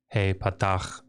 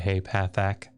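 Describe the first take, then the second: First: The last word ends in a throaty CH sound. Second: The last word ends in a hard K sound. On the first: The speaker calls it right. "instead of hey patach dagesh" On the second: The speaker calls it wrong. "See how awful that is when I say hey pathak"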